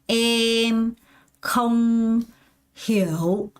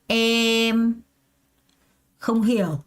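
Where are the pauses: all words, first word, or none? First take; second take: all words; first word. First: There is a pause between every word. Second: There is one pause after the first word. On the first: "먼저 단어로 하나하나씩 다 끊어서 연습을 한다는 거예요" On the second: "주어랑 수어를 끊는 거예요"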